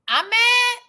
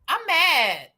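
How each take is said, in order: First: "I'm mad" high and rising; incredulous question. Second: "I'm mad" starting high, falling long; mock confession. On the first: Pretend. Echoes the accusation as a question. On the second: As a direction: land "I'm mad" as a drawn-out falling statement. Answers own question in mock confession.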